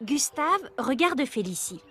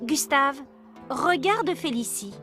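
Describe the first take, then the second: First: It is said as a plain statement. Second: It is said as a command.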